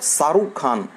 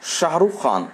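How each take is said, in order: First: The name begins with a plain s sound. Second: The name begins with an sh sound. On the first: The speaker calls it wrong. "It is not Saruk Khan" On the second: The speaker calls it right. "It is Shahrukh Khan"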